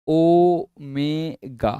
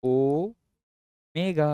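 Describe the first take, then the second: First: ओमेगा drawn out slowly as "o-me-ga"; teacher slowly spelling out ओमेगा by sound; pronouncing omega. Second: ओमेगा drawn out slowly, "o-me-ga", a little softer; teacher repeating ओमेगा slowly; pronouncing omega again. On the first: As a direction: stretch each syllable of ओमेगा. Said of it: "कैसे pronounce करते हैं?". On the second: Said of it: "ना, कैसे?". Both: Shown as a demonstration.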